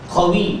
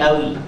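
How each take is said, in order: First: The word begins with a deep back q sound. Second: The word begins with a glottal stop. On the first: This is the standard form. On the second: This is the Egyptian colloquial form. "dia jadi hamzah"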